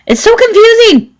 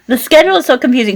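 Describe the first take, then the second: First: High squeal of exasperation; exasperated squeal. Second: Quick laughing aside. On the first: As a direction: squeal it out, overwhelmed. Mock exasperated exclamation. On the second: Laughing restatement. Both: Real, not acted.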